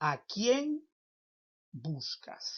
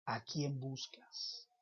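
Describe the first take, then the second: First: "¿A quién" jumps high, then "buscas" drops; rising, raised question on "quién"; high first ask. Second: "¿A quién buscas?" said softly and slowly; hushed, drawn-out repeat of the question. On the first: (pregunta aguda con "quién" muy alto) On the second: (repetición suave y lenta) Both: Shown as a demonstration.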